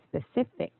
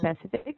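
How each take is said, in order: First: The stress is on the second syllable. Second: The stress is not on the second syllable. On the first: The speaker calls it right. "Instead, it's supposed to be specific. It's like the stress is in the C I" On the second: The speaker calls it wrong. "it's not supposed to be"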